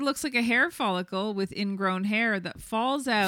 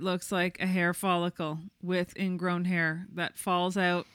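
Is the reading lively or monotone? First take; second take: lively; monotone. First: It is read with a lively, varied cadence. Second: It is read in a flat, monotone voice. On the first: "you're reading this just like the OOTD review. The cadence" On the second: "more monotone"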